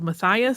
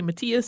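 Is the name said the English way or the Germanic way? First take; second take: English; Germanic. First: The name is said the English way. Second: The name is said the Germanic way. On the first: "which is spelled Matthias. Some people might pronounce it that way" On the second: "Most Germanic languages say Matthias, so we're going with that"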